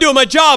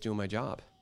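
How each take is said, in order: First: It is said in a harsh, defensive tone. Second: It is said in a soft, calm tone. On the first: The speaker is lashing back at the other person. The speaker calls it wrong. "But you answer back to them" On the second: The speaker wants to calm the situation. The speaker calls it right. "And you answer softly"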